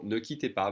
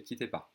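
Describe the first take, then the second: First: Formal version, ne kept; careful formal ne quittez pas; ne quittez pas, full form. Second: Casual everyday quittez pas; relaxed spoken French, no ne; quittez pas, ne dropped. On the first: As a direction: say ne quittez pas with the ne clearly sounded. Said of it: "Same thing with the formal". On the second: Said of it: "people would most likely say". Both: Shown as a demonstration.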